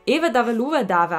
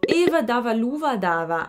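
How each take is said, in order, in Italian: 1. È detto velocemente, a un ritmo più rapido. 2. È detto a un ritmo normale, senza fretta.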